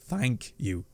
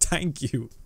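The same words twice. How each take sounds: First: The word begins with a soft 'th' sound. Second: The word begins with a hard plain 't' sound. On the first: "we don't really say thank you" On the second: "We say thank you. ... too lazy to pronounce our H's"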